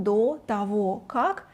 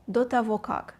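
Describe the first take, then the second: First: Said in the usual way. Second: Quicker, connected phrase without pauses; said faster. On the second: Shown as a demonstration. Teacher showing learners how to say it faster, quick and joined. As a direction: run the three words together. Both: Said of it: "try to say it faster".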